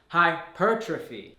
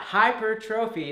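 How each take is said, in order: First: The stress is on the second syllable. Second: The stress is not on the second syllable. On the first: The speaker calls it right. "put the emphasis on the second syllable" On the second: The speaker calls it wrong. "so it's not hypertrophy"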